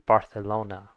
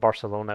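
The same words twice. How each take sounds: First: The c is pronounced as a th sound. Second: The c is pronounced as an s sound. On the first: This is how some speakers in Spain say it. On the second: This is how it is said in Latin America.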